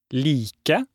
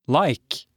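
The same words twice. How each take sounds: First: "Like" as LEE-keh, two syllables with a long ee; "Like" with ee as in cheese and a final eh; Norwegian long I. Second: Said in the usual way. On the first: Shown as a demonstration. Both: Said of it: "Like in the word cheese".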